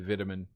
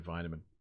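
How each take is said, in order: First: It is said the Australian way. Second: It is said the American way.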